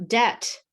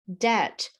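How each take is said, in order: The two takes are said the same way.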